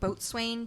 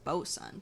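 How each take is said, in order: First: It is said as boat-swain, following the spelling. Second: It is said as two short syllables, bosun. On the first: The speaker calls it wrong. "which I think is supposed to be pronounced different" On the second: The speaker calls it right. "just Bosun"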